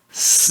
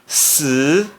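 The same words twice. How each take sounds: First: The pitch stays high and level. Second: The pitch rises from middle to high. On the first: "S I no primeiro tom se pronuncia s" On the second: "No segundo tom"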